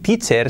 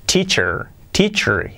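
First: "teacher" as TEE-cher with clear e and tapped r; Spanish-accented English. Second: "teacher" as TEE-chur with an English r; native English pronunciation. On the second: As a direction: model "teacher" word by word, reduced ending. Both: Shown as a demonstration. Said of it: "Y podría decir teacher".

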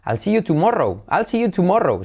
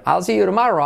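First: "tomorrow" with rounded O, tu-MO-rou; high lilting "see you tomorrow" with wrong O; comic foreigner's "tumórou" in "tomorrow"; funny learner's mistake. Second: "see you tomorrow" lilting, as "siyu-ro-MA-ro"; sing-song "I'll see you tomorrow" with open A; correct linked form. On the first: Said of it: "harás mucha gracia las primeras veces". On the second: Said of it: "si decir". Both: Shown as a demonstration.

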